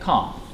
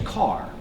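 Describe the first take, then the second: First: The R is silent and the vowel lengthened. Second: The R at the end is pronounced. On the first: "But in British English, you're going to say car" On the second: "In American English, they're going to say car"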